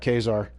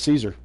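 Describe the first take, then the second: First: The name begins with a k sound. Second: The name begins with an s sound. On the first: This is the pronunciation used in the game. "not pronounced like Julius Caesar" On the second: This is the familiar historical pronunciation. "I always called him Caesar"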